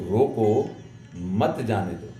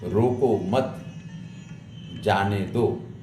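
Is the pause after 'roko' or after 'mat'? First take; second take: after roko; after mat. First: The pause comes after 'roko'. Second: The pause comes after 'mat'.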